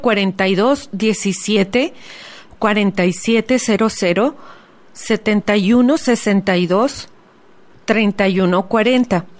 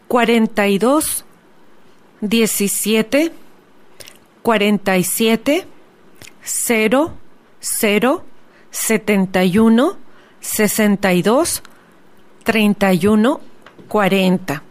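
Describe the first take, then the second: First: The numbers are read at normal speed. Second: The numbers are read slowly.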